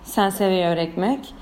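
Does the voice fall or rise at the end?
falls. The voice falls at the end. It is a statement. "Bu mesela cümle ya İspanyolca"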